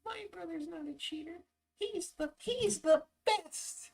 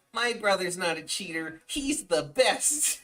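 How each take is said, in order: First: Very high squeaky voice, softer and slow at the end; squeaky little brother. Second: Put-on raised kid-brother voice, last words slow and drawn; chirpy loyal little brother defending him. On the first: Retold or imitated. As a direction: ham up the devoted kid brother. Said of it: "I even did the little arm swing". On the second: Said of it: "He's like".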